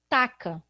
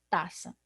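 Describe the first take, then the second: First: The middle consonant is a k sound. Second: The middle consonant is an s sound. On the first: "eu vou arrumar outro problema"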